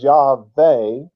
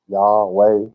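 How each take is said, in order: First: The middle consonant is a V sound. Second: The middle consonant is a W sound.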